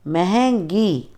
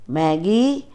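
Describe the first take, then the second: First: महंगी in full, "mehengi", with the nasal; correct pronunciation. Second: महंगी clipped to "mæggi"; wrong pronunciation. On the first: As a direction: say महंगी slowly and fully, mehengi. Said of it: "शुद्ध उच्चारण अलग तरीके से होता है". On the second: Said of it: "अशुद्ध उच्चारण अलग तरीके से होता है". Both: Shown as a demonstration.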